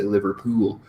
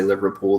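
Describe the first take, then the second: First: "Liverpool" in a mild Welsh accent; lightly Welsh "Liverpool", drawing out the last vowel; a less exaggerated Welsh drop on "Liverpool". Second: Said in the usual way. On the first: Shown as a demonstration. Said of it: "not as exaggerated for somebody who's Welsh". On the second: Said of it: "somebody who's Welsh to say Liverpool".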